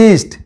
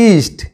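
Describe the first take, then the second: The two takes are said the same way.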